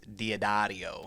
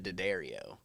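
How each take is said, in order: First: The surname is said the Italian way. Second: The surname is said the American family way. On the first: This is how it is said in Italy. The speaker calls it right. "No, no, no, no, no, no, it's Diodario" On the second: This is how the family says the name. The speaker calls it wrong. "my family pronounces it D'Addario"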